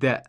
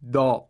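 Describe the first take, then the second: First: The back of the tongue stays low; light sound. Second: The back of the tongue is raised; heavy sound. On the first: The speaker calls it right. "It should be da" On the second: The speaker calls it wrong. "this is a mistake because dal does not have isti'la"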